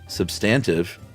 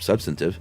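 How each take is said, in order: First: The stress is on the second syllable. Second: The stress is on the first syllable. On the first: "with the accent on the second syllable" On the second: "instead of substantive"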